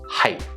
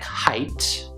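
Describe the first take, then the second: First: The final t is cut off, not released. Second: The final t is fully released. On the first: The speaker calls it right. "So I don't actually get to the t" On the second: The speaker calls it wrong. "it sounds like height with the hard t"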